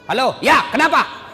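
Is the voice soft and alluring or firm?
firm. It is said firmly and curtly.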